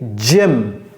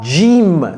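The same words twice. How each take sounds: First: The vowel is a short, clipped English i. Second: The vowel sounds like a French i. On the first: The speaker calls it right. "c'est gym ... short I" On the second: The speaker calls it wrong. "Ne prononcez pas ça gym"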